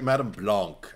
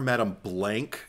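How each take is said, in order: First: The name is said with a French pronunciation. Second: The name is said with an American pronunciation. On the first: The speaker calls it right. "that's how they pronounced it in the remake" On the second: The speaker calls it wrong. "It feels so ugly and American"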